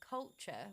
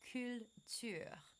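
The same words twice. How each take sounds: First: It is said with English sounds. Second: It is said with French R and U sounds. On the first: The speaker calls it wrong. "instead of saying culture" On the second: The speaker calls it right. "we're saying culture"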